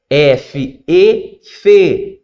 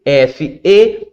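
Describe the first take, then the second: First: Chanted teacher's pattern ending on fe; resolved syllable drill. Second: F then E, left open; unresolved spelling prompt on E; cue to complete. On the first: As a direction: spell F, lift E, close on fe. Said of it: "Então você vai continuar". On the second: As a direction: hold out E for the pupil to finish. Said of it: "o aluno completa". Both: Shown as a demonstration.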